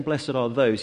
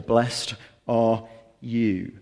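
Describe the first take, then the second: First: Said in the usual way. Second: "Blessed are you." said very slowly, every word drawn out; stress on YOU. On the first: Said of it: "rather than saying". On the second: Shown as a demonstration. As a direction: lean slowly into "you" to show he means them. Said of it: "Jesus changes, and he, rather than saying".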